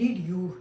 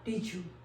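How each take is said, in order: First: The two words are said separately with a 'd'. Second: The two words are joined with a 'j' sound. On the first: The speaker calls it wrong. "हम लोग कहते हैं डिड यू, नहीं" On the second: The speaker calls it right. "जे का sound"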